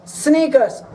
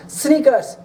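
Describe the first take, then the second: No difference in how they are said.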